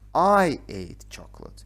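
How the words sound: The stress is on the word I.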